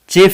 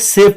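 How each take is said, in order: First: It begins with a 'ch' sound. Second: It begins with a 'sh' sound. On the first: The speaker calls it wrong. "चेफ नहीं" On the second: The speaker calls it right. "इसे सेफ पढ़ेंगे"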